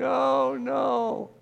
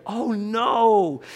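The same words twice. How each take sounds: First: High, drawn-out mock wail; acted tearful lament, pitched way up; imitated crying. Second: High, loud cry of mock dismay; raised, drawn-out dismayed exclamation; acted dismay. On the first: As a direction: wail it in despair, not anger. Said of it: "He's like crying". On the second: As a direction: cry out like an onlooker suddenly caught up in it. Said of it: "He goes from seeing what's happening to like".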